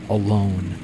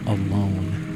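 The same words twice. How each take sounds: The two takes are said the same way.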